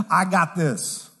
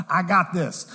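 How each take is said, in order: First: Slow stubborn quote. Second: Said in the usual way. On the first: Retold or imitated. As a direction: draw out "I got this" slowly and stubbornly. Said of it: "keep in pride saying".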